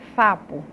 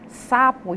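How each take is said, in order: First: The word begins with an f sound. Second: The word begins with an s sound. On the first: The speaker calls it wrong. "e fala fapo" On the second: The speaker calls it right. "a pessoa vai falar sapo"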